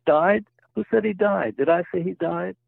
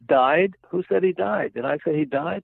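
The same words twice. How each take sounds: First: Higher and more indignant, pushing each question up; angrier retort. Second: Raised, indignant questioning, a bit higher; retelling a joke, patient bristles at the doctor, mock anger; angry retort. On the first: Retold or imitated. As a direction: joke patient snaps back at the doctor, hammed-up anger. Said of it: "more angry than before". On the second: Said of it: "the patient said angrily".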